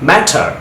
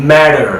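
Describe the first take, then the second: First: ম্যাটার as "MAT-ah", crisp T; British "matter", clear T in ম্যাটার. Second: ম্যাটার as "MAD-er"; American "matter", D-like middle in ম্যাটার; American soft D. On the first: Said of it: "ব্রিটিশরা টি এর মতো sound করছে". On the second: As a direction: say ম্যাটার with a flapped T and R ending. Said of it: "আমেরিকানরা ডি এর মতো sound করছে". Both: Shown as a demonstration.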